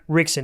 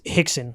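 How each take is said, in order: First: It starts with an English R sound. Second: It starts with a Brazilian H-like sound.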